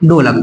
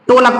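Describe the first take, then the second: First: The word starts with a breathy 'dh' sound. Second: The word starts with a plain 't' sound. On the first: The speaker calls it right. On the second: The speaker calls it wrong. "कुछ लोग क्या पढ़ते हैं, टोलक पढ़ लेते हैं"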